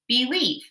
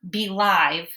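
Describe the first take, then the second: First: The second syllable has a long E sound. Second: The second syllable has a long I sound. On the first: The speaker calls it right. "it's got to be the long E sound" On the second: The speaker calls it wrong. "that doesn't work"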